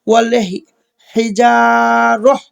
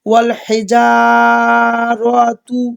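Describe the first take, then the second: First: The last word ends with a soft 'h' sound. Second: The last word ends with a full 'tu' sound. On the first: The reciter stops to take a breath. "থামতে হবে... এখানে র লাগবে হায়ের সাথে" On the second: The reciter continues without stopping. "যদি আপনি দম না ফালান সেক্ষেত্রে এটি যা আছে তাই বলে যাবেন"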